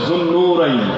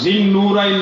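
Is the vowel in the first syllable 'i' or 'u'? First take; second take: u; i. First: The first syllable has a 'u' vowel. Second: The first syllable has an 'i' vowel. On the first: The speaker calls it right. "শব্দটা হবে যুন্নুরাইন" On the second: The speaker calls it wrong. "শব্দটা জিন্নুরাইন নয়"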